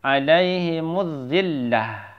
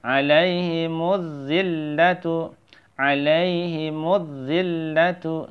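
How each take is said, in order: First: "zillah" ending in an audible h; breath-h close on "zillah"; waqaf stop. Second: "zillatu" chanted with a sounded tu ending; higher chant of "Alaihimuz zillatu"; joined recitation. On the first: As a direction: chant "alaihimuz zillah" slowly and stop on h. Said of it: "Kalau kita mau waqaf". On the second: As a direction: run "Alaihimuz zillatu" slowly with doubled z and l. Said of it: "Seperti itu ya". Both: Shown as a demonstration.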